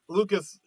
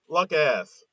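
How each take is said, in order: First: The name ends with a plain 'cus' sound. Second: The name ends with a clear 'ass' sound.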